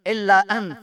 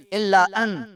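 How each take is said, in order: Both takes have the same delivery.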